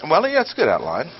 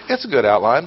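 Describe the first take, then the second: First: Quick, half-hearted well, yeah, it's a good outline; grudging irony. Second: Said in the usual way. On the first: Shown as a demonstration. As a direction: concede it with a wink. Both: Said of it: "it's pretty ch".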